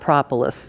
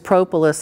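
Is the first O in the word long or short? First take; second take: short; long. First: The first O is a short vowel. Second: The first O is a long vowel. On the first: "Kim Flottam is going to make it a short O" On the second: "So they feel that that's a long O"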